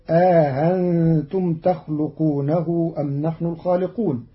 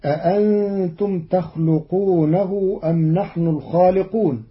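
First: أأنتم said aahantum, a long alif then the second hamza softened; eased hamza with alif. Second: Said in the usual way. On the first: Shown as a demonstration. Teacher shows Qalun's أأنتم with the alif inserted. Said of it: "بتسهيل الهمزة الثانية بين بين". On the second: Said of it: "قرأ قالون كلمة".

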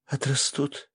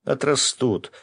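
First: "Отрастут" as a high, hesitant question; doubtful question. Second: "Отрастут" as a firm high exclamation, falling; reassuring exclamation. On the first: Girl asking if her hair will return, questioning "Отрастут". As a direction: ask "Отрастут" high, seeking reassurance. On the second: Феникс answering her cry about hair, firm exclamation on "Отрастут". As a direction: state "Отрастут" emphatically, tune coming down. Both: Acted.

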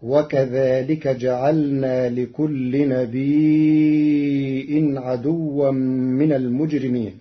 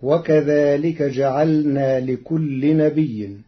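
First: نبي stretched into a long madd before a hamza, chanted very slowly; Warsh reading, long madd. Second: نبي with a doubled ya and no hamza, slow; Hafs reading. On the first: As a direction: draw out the ya of نبي then stop on the hamza. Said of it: "فتصير هكذا". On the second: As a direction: recite نبي without hamza. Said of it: "قرأ ورش كلمة نبي". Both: Shown as a demonstration.

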